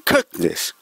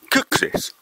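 First: Said in the usual way. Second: Whispered correction. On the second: Shown as a demonstration. 観客にそっと正しい発音を教える、ささやき声. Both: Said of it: "料理人の正式な発音は".

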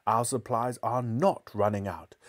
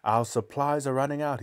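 First: Firm contradiction with NOT punched; "not" set apart and emphasized; stress on NOT. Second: Tense, raised-pitch retort; understated snarling delivery; mild snarl. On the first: Acted. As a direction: hit the word "not" hard. Mother contradicts the cook. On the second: A narrator's reading. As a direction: snap it as the cornered cook. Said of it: "he snarled".

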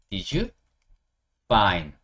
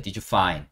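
First: Did you, pause, find, in two separate pieces; word-chunk drill. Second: Said in the usual way. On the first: Shown as a demonstration. Teacher drilling a phrase to memorise, chunk by chunk. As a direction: lift Did you, then drop on find after a pause. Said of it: "못한다면 외우면 돼요". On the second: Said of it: "아까 했죠".

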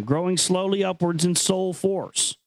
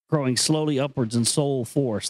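First: Grave reading voice, pitched up from his chat; solemn recitation. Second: Said in the usual way. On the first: Acted. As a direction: intone the line like scripture. Reads ancient text aloud.

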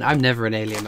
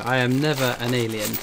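First: Said in the usual way. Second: "I am" said in full, stressing NEVER; emphatic restatement. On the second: Real, not acted. Streamer denying being the alien in the game, emphatic stress on NEVER. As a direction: spell out "I am NEVER", leaning on never.

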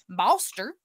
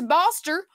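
First: "Boster" said lower, as locals say it; put-on local Southern "Boster"; local pronunciation. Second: Said in the usual way. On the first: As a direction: drop the pitch on "Boster" in a local Southern twang. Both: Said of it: "as the locals like to call it".

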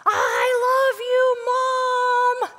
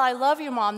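First: Put-on high, drawn-out child's holler; imitating a kid's full-volume shout; top-of-lungs yell. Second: Said in the usual way. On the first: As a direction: yell it out slowly to Mom across a crowd. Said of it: "he yelled at the top of his lungs".

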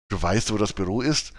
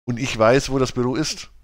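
First: Mildly amazed, rising into a question; astonished question. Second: Said in the usual way. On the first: A narrator's reading. Jennifer to Miriam who knows the office, astonished. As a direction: ask it with understated surprise. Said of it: "staunte Jennifer". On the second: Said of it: "gab Miriam anerkennend zu".

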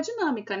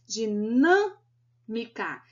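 First: Said in the usual way. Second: "Dinâmica" split into syllables, very slow, strong stress on "nâ"; syllable stress demo. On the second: Shown as a demonstration. Teacher showing the strongest syllable of "Dinâmica", stressed and broken up slowly. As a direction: draw out "Dinâmica" syllable by syllable, leaning hard on the middle "nâ". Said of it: "não é a última nem a penúltima sílaba mais forte".

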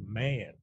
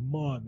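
First: "man" with a flat American a; "man", no Jamaican vowel; ordinary man. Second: "mon" with a rounded open o; "mon", vowel like "on"; Jamaican-style mon. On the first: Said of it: "it was man". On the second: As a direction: say "mon" as in a mock Jamaican accent. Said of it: "sometimes it wasn't even mon". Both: Retold or imitated.

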